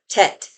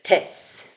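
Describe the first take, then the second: First: The word ends with a T sound. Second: The word ends with an S sound. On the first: This is the typical Israeli pronunciation. "I would pronounce that tet" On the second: "they write it as tes"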